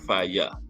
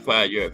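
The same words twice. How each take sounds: First: The word ends in an open 'ya' vowel. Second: The word ends with a clear r sound. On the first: The speaker calls it right. "F I Y A" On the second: The speaker calls it wrong. "not fire"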